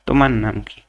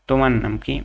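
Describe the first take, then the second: The two takes are said the same way.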